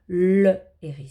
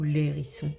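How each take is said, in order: First: The article's vowel is kept, separate from the noun. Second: The article's vowel is dropped and joined to the noun. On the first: The speaker calls it right. "Je dis ... le hérisson" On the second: The speaker calls it wrong. "je ne peux pas dire ... l'hérisson"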